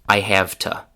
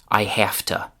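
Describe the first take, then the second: First: Have keeps its v, but to reduces to ta. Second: Have ends in f, and to reduces to ta. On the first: "the pronunciation of to becomes ta" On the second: "we change it to unvoiced f"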